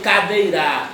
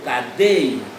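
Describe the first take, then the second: First: The stress is not on the middle syllable. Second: The stress is on the middle syllable. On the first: The speaker calls it wrong. "Eu não digo cadeira" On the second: The speaker calls it right. "eu digo cadeira. Então, dei é a sílaba mais forte"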